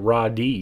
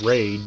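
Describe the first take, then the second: First: It is said as two syllables, raw then dee. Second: It is said as one syllable, like raid. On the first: "I just pronounced it Raw D because that's what it looks like" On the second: "that's what it says at the beginning of the game"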